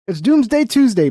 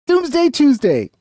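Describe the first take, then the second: First: Hyped announcement. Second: Sung-out announcement. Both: Real, not acted.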